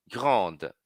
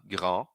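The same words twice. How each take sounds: First: "grande" with the D clearly pronounced at the end; final D sounded. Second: "Grand" ending on a nasal A, no D sounded. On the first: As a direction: land on the D of "grande". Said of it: "Pronuncio o D". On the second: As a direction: stop on the nasal vowel in "Grand". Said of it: "para no N, no, no A nasal". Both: Shown as a demonstration.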